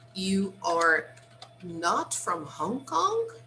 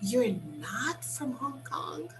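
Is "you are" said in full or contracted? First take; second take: full; contracted. First: "You are" is said as two full words. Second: "You are" is shortened to one syllable.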